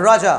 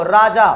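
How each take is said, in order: First: राजा starting with tongue curled far back; heavy curled r opening राजा; retroflex r. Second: राजा with an everyday r, tongue not curled back; light forward r in राजा; palate-placed r. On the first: Teacher showing what it really is, retroflex राजा. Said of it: "लेकिन ये होता क्या है". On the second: Teacher showing the habitual mistake, palate-placed राजा. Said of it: "राजा के लिए आप तालब पे ले आए". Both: Shown as a demonstration.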